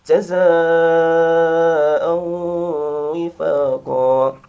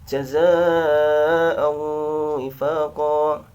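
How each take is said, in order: First: The long vowel is held for four beats. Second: The long vowel is held for three beats. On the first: "Yang empat harokat dua gelombang" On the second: "Kita contohkan yang tiga harokat"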